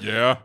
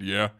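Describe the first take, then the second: First: Said in the usual way. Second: Extremely deep bass voice. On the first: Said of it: "and I was just like". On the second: Retold or imitated. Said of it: "dropped the deepest voice I could".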